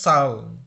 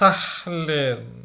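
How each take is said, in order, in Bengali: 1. প্রথম স্বরধ্বনির পরে কোনো h ধ্বনি শোনা যায় না। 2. প্রথম স্বরধ্বনির পরে একটি h ধ্বনি শোনা যায়। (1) "এইচ এর উচ্চারণ হবে না" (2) "এটা কিন্তু একদম ভুল উচ্চারণ"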